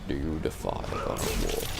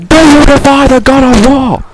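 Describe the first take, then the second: First: It is said at a normal, quieter volume. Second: It is shouted very loudly.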